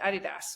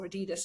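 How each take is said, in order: First: The name is said the British way. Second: The name is said the American way.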